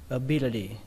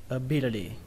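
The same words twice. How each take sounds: The two takes are said the same way.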